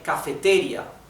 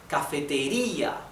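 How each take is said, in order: First: The stress falls on a syllable other than ri. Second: The stress falls on the syllable ri. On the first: The speaker calls it wrong. "We don't say cafeteria" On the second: The speaker calls it right. "the intonation is in letter I"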